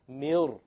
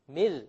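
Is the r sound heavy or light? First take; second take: heavy; light. First: The r is heavy and thick. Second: The r is light and thin. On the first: "this ra will become heavy" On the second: "generally it will be light"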